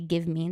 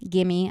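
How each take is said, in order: First: The two words are said fully and separately. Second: The two words are run together and reduced. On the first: The speaker calls it wrong. "You're not gonna say give me. It's way too hard" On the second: The speaker calls it right. "gimme, obviously"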